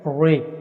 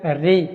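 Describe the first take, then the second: First: The r is pronounced heavy and full. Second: The r is pronounced thin and light. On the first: The speaker calls it wrong. "री ये नहीं पढ़ना" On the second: The speaker calls it right. "बारीक पढ़ी जाएगी"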